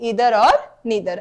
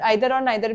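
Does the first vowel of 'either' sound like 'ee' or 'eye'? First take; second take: ee; eye. First: The first vowel sounds like 'ee'. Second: The first vowel sounds like 'eye'.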